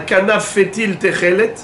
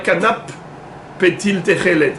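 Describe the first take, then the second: First: An f sound is followed by another f sound. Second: A p sound is followed by another p sound. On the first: "il y en a qui vont dire" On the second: "il y en a qui vont dire"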